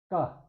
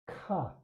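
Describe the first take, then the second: First: The first consonant has no puff of air. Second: The first consonant has a puff of air.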